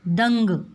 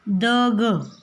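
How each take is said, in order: First: The first syllable is said with a nasal sound. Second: The first syllable is said without a nasal sound. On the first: The speaker calls it right. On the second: The speaker calls it wrong.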